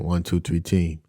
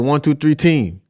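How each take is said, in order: First: It is said flatly, with no energy. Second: It is said with lots of energy.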